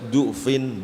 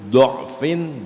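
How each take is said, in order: First: The first vowel is a rounded u sound. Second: The first vowel is an open a/o sound. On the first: "pertama du" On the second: "boleh dibaca fathah"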